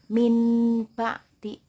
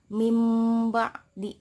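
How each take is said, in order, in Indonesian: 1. Bunyi sengau sebelum b terdengar seperti n. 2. Bunyi sengau sebelum b terdengar seperti m. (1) "bukan min ba di, bukan nun ya" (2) "Jadi cara bacanya mim ba di"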